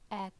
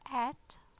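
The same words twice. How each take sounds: First: The t is released with little or no air. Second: The t is released with a strong puff of air. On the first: "No aspiration, no air" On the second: "in English it's at, there is aspiration"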